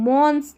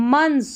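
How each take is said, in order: First: Months said "mons", with an o; rounded "o" vowel in months; wrong "months". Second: Months said "muns", short u; short "uh" vowel in months; correct "months". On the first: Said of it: "months नहीं पढ़ना है इसको". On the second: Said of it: "क्या पढ़ेंगे?". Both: Shown as a demonstration.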